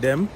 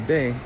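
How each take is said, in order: First: The word is said with a final M sound. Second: The final M is dropped, leaving a nasal.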